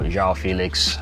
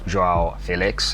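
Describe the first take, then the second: First: The name is said the usual English way. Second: The name is said the player's own way. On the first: The speaker calls it wrong. "we've been mispronouncing this man's name" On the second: The speaker calls it right. "as he says"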